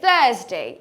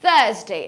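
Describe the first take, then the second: First: The r sound after the vowel is silent. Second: The r sound after the vowel is silent.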